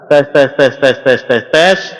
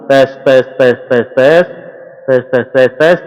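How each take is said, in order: First: The voice sounds bright and crisp, treble boosted. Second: The voice sounds deep and bassy, treble removed. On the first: "Treble saya fullkan" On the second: "Treble saya nolkan langsung"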